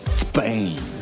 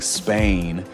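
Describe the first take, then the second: First: The word begins with a lisped TH sound. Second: The word begins with a plain S sound. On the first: "pronounced the letter S with like a TH, th sound" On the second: "instead of saying Spain"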